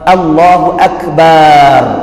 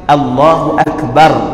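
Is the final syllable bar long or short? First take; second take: long; short. First: The final syllable bar is drawn out long. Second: The final syllable bar is short. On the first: Allah is a drum. The speaker calls it wrong. "jadi panjang lafaz bar, juga salah" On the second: Allah is the Greatest. The speaker calls it right. "sepatutnya kita kena ucap Allahu Akbar"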